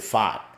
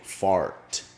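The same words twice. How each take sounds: First: The R sound is dropped in a local accent. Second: The R sound is clearly pronounced. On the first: "Otherwise, I say fart, and it just sounds horrible" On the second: "I have to concentrate to say fart"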